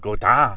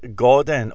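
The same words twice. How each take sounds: First: The name is pronounced the French way. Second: The name is pronounced the English way.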